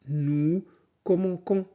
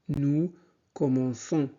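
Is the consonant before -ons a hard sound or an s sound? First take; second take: hard; s sound. First: The consonant before -ons is a hard sound. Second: The consonant before -ons is an s sound. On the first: The speaker calls it wrong. "on prononcerait que nous commençons, ce qui ne serait pas correct" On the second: The speaker calls it right. "pour conserver le son S"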